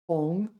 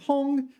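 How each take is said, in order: First: The pitch dips low and then rises. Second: The pitch stays high and level. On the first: To deceive or coax someone. "third tone hong" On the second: A hubbub or uproar. "first tone hong was hubbub"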